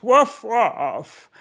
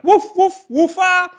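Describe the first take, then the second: First: Weary, drawn-out woof, a little higher; exhausted dog. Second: Very high, loud yappy woofs; lively dog bark. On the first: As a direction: bark like a dog too tired to bother. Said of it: "They always sound like this". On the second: Comedian imitates the Fordsburg dogs barking, high and loud. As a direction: yap it out bright and bouncy. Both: Retold or imitated.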